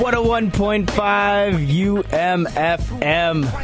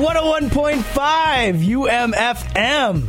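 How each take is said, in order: First: It is said with little energy. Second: It is said with lots of energy.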